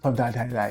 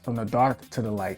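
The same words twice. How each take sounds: First: It is said fast. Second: It is said slowly.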